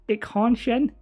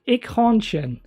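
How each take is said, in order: First: Eichhornchen as ikh-hahn-shen, rising like a question; unsure attempt. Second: Eichhornchen said as ikh-hahn-shen, falling firmly; confident attempt. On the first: Unsure of the German word, tries it again questioningly. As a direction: ask Eichhornchen back, doubtful. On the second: Trying the German word for the chat, says it firmly. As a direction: commit to Eichhornchen with a falling end. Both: Shown as a demonstration. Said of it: "Can you say".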